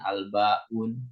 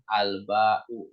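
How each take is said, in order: First: The word ends with an added n sound. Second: The word ends on a vowel with no n sound. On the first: The speaker calls it wrong. "nggak boleh tanwin" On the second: The speaker calls it right. "nggak boleh tanwin"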